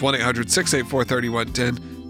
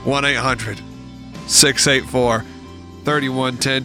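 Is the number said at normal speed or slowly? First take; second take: normal; slowly. First: The number is said at normal speed. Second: The number is said slowly.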